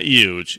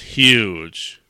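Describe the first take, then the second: First: The word begins with a 'y' sound. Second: The word begins with an 'h' sound. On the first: The speaker calls it wrong. "Not with a Y" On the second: The speaker calls it right. "It's huge"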